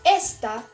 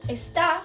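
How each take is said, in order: First: The stress is on the first syllable. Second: The stress is on the last syllable. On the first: "este acento en la primera sílaba, no en la última" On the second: "una acentuación aguda en la última sílaba"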